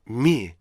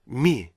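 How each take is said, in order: No difference in how they are said.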